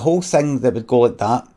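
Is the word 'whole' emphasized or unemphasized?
emphasized. The word whole carries strong emphasis. The speaker calls it wrong. "I wouldn't like how I put the emphasis on the word whole"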